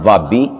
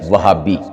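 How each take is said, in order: First: There is no h sound at all. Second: An h sound is in the middle. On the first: The speaker calls it wrong. "ना वाबी" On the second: The speaker calls it right. "तो सही लफ्ज़ क्या है? वहाबी"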